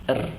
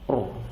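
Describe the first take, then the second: First: The r is said thin, with a light front sound. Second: The r is said thick, with a full back sound. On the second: "Ketika dia tebal"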